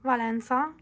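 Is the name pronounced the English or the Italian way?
Italian. The name is said with Italian pronunciation.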